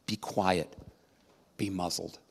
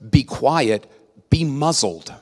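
First: Soft and lower, calmly in control; calm, hushed rebuke to the storm; quiet command. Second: Louder and sharp, like scolding a dog; firm rebuke to a yappy pet; stern command. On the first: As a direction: say it under your breath with total authority. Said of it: "Yet that's how he spoke". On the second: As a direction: bark it as an order. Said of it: "another way to interpret what he said". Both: Shown as a demonstration.

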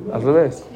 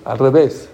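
First: "Al revés" said through a laugh. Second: Said in the usual way. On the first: Real, not acted. The teacher repeats the twist to the class, laughing.

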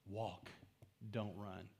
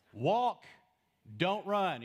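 First: Soft, low, unhurried advice; hushed, low-pitched reminder; gentle reminder. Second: Loud, higher lifeguard command; raised-voice pool warning; lifeguard yell. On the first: Shown as a demonstration. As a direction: say it quietly and lower, letting it settle. Same line repeated softly as advice. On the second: Acted. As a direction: call it out like a lifeguard at swimmers. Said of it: "ever been yelled at by a lifeguard".

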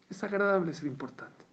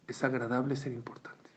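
First: "Es agradable ser importante" repeated higher, stressing "agradable"; emphatic repeat. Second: Said in the usual way. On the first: Shown as a demonstration. Preacher repeating the saying higher to stress "agradable". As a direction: lift "agradable" and drive the saying home.

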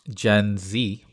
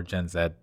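First: Z said as "zee"; American Z. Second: Z said as "zed"; Canadian Z. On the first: Host naming the generation the American way, Z as "zee". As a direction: say the Z in Gen Z to rhyme with "see". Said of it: "the letter Z here is Zed". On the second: Host offering the Canadian alternative, Z as "zed". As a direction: say the Z in Gen Z to rhyme with "bed". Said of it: "official way of pronouncing". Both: Shown as a demonstration.

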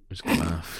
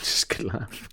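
First: Said in the usual way. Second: "Just good laugh" breathed out through laughter. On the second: Real, not acted.

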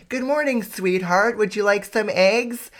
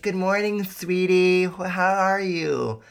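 First: Much higher, sugary sweet voice; mock saccharine morning greeting; Instagram-perfect wife. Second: High, sweet morning greeting; lightly voiced sugary wife. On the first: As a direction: gush like a picture-perfect wife. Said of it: "Instagram is like". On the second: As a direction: coo it like a loving wife. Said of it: "she's like".

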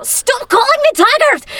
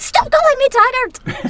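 First: High, loud, slow Scottish shout; imitating a Scottish friend. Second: High, loud, slow Scottish protest; Scottish shout. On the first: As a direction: snap back like she's sick of the joke. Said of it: "she would always just go". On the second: Retold or imitated. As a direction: blurt it out Scottish-style at the start of a take. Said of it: "start every take with".

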